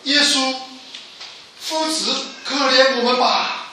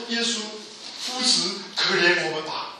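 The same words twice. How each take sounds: First: Raised, higher voice calling for mercy; loud pleading cry. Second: Said in the usual way. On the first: Retold or imitated. Four lepers crying out to Jesus from afar, loud plea. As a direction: call out high and loud, begging. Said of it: "这四个人一起高声说". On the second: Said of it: "高声向耶稣求恩典".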